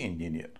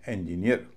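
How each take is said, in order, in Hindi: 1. Stress सिर्फ एक अक्षर पर है। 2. पहला और आखिरी, दोनों अक्षरों पर स्ट्रेस है। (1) "न कि इंजीनियर" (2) "इसका उच्चारण होगा इंजीनियर"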